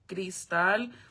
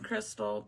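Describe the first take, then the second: First: The name is pronounced with a Spanish accent. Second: The name is pronounced with an English accent. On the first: The speaker calls it right. "but it's actually Cristal" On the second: The speaker calls it wrong. "like American name Crystal"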